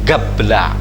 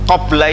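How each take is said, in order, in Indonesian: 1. Kata itu diawali bunyi g. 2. Kata itu diawali bunyi q yang dalam.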